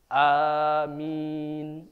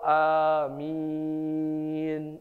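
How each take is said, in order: First: The second vowel is held briefly. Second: The second vowel is held very long. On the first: "minnya boleh dua" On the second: "boleh enam"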